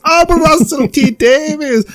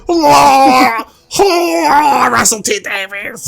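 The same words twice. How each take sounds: First: A hammed-up swoon over his own name; high mock-dreamy self-adoration; mock Russell voice. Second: Much higher hammed-up wailing; fake-sob his own name in ecstasy; sobbing, squealing mock rapture; mock crying. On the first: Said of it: "Russell appears on the screen again and goes". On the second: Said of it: "He's like".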